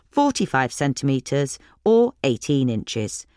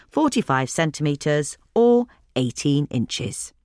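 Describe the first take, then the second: No difference in how they are said.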